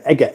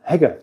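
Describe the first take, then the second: First: The word starts with a vowel sound. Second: The word starts with an h sound. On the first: The speaker calls it right. "egg, not heg" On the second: The speaker calls it wrong. "don't hegger"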